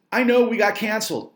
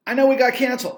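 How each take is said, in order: First: Said in the usual way. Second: Higher and louder, pressing on "know"; insistent second take; louder repeat. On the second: Real, not acted.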